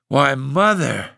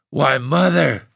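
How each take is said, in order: First: Slow, dazed "Why, Mother." trailing off; dazed repeat. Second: High stunned gasp on Mother; breathless disbelief. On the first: Husband repeating himself, slowly and dazed. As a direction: say it again, slowly and helplessly. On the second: Husband stunned by his wife's revolt, gasping. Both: A narrator's reading. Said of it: "the old man gasped".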